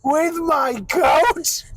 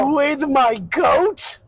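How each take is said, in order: First: Drawn-out goat bleat voice; slow goat voice attempt. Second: Goat voice attempt. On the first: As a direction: stretch it like a goat. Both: Shown as a demonstration. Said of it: "I can do better than that".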